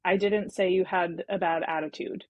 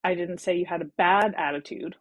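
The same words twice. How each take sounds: First: Didn't hit hard; stress on didn't. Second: Bad lifted, rising end; stress on bad. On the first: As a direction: lean on the word didn't. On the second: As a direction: push the word bad up. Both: Shown as a demonstration. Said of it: "you emphasize a different word".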